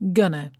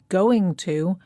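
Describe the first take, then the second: First: The words are run together quickly into one. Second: Both words are said fully and separately. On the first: "very fast and it sounds like gonna" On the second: "the words going to"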